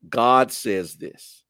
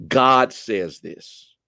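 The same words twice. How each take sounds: The two takes are said the same way.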